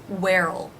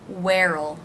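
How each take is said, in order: First: It is contracted with a reduced will. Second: It is contracted with a reduced will.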